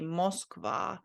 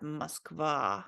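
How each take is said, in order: First: Moskva with a full rounded O in the first syllable; wrong pronunciation. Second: Moskva as mask-VAH, first O like ah. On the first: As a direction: say "Moskva" as MOSK-va, with a clear O. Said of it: "you're not supposed to say Moskva". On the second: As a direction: say "Moskva" slowly with an ah in the first syllable. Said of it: "So this is said like ah". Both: Shown as a demonstration.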